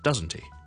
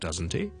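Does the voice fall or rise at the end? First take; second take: fall; rise. First: The pitch falls at the end. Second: The pitch rises at the end. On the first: The speaker already knows the answer. "我已经知道答案了" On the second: The speaker is a little doubtful. "咁就会上升"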